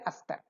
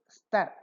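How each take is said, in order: First: An extra vowel is added before the cluster. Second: It starts directly with the s consonant cluster. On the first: The speaker calls it wrong. "they will say astar" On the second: The speaker calls it right. "They can't say star"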